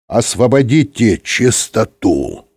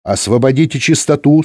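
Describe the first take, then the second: First: Slow, measured stern command; deliberate, weighty reprimand. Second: Higher, brisk female reprimand; strict switchboard operator; stern woman. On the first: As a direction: spell out the order with authority. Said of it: "строго сказал Юрковский". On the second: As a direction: order them off the air strictly. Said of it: "строго сказала женский голос". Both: A narrator's reading.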